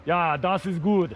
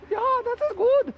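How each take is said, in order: First: Low, slow German accent. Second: Very high-pitched German accent. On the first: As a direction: put on a deep German voice. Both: Shown as a demonstration. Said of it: "German accent".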